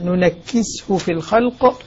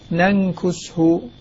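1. الكاف مشدّدة وتتبعها كسرة. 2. الكاف غير مشدّدة وتتبعها ضمة. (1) "الكاف مكسورة مثقلة" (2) "كما نص عليها"

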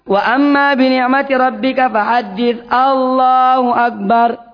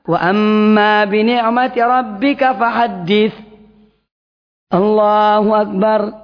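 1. Allahu Akbar langsung diucapkan tanpa jeda. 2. Ada jeda singkat sebelum Allahu Akbar. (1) "Jangan langsung. ... Itu keliru" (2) "Jadi yang benar adalah"

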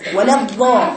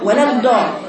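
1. يُنطق كظاء، واللسان بارز بين الأسنان. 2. يُنطق الحرف كدال عادية. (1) "تطلع لسانها كهيئة القارئ للضار" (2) "تروح تقرأها دال فقط"

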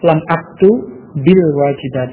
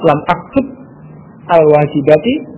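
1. Huruf b di akhir tersambung dengan vokal kasrah. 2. Setiap kata dibaca terpisah, tanpa sambungan.

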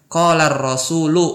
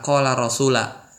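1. Kata itu diakhiri vokal u. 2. Kata itu diakhiri vokal a. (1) "Harus marfu ya"

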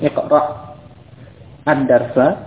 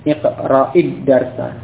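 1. Kata pertama berhenti sebelum kata kedua dimulai. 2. Kata pertama langsung tersambung ke kata kedua. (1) "kalau memang mau dibaca terputus, ya, dengan sukun asalnya" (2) "kalau bersambung maka dibaca dengan kasrah"

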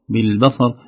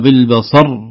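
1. الراء الأخيرة خفيفة، بلا ضغط ونبرة. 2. النطق بضغط ونبرة يجعل الراء الأخيرة مضعّفة. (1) "نقول" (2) "تصبح كأن الراء تشعرنا بأنها مشددة"

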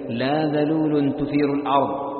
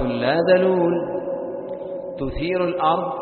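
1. تتصل الكلمات دون وقفة. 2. توجد وقفة بعد الكلمة الثانية. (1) "فإذا وصلت ظهر المعنى" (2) "فإذا قطعت قلت"

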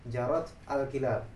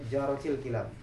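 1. Artikel itu diucapkan terpisah sebagai 'al'. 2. Artikel itu disambung ke kata benda sebagai 'il'.

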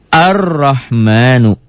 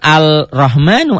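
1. Bunyi l dihilangkan dan melebur ke dalam r. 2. Bunyi l diucapkan sebelum r. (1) "Nyamber ke yang ada apa-apanya, ke Ro" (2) "Jangan Al-Rahmanu, Al-nya jangan dibaca"

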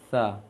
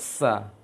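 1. Konsonannya adalah th dengan lidah di antara gigi. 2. Konsonannya adalah bunyi s biasa yang mendesis.

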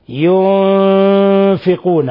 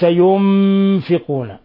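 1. النون مُخفاة بصوت أنفي. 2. النون مُقلوبة إلى صوت ميم. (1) "ينفقون وليس ينفقون" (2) "من الخطأ أن تقلب النون ميما"

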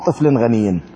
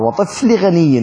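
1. الكلمة الأولى تنتهي بصوت نون زائد. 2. الكلمة الأولى ما فيها صوت نون زائد. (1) "هذا طبعا مو تنوين" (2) "يعني مضافة، هذا بالإضافة"

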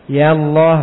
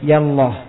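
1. Vokal 'ya' diucapkan panjang. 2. Vokal 'ya' diucapkan pendek. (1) "Yang pertama iya-nya ditetapkan bersamanya alif" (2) "Atau dibuang alif pada iya-nya"

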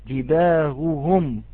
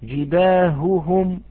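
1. الهاء ضعيفة، تشبه الهمزة المسهلة. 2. الهاء واضحة، مع نفس مسموع. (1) "وإنما يعطيها كالهمزة المسهلة" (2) "وعليه أن يصفيها"

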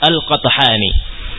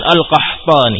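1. Bunyi t datang sebelum bunyi h. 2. Bunyi h datang sebelum bunyi t. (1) "Ta'nya duluan kemudian ha" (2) "bukan Al-Qahtani, hati-hati"

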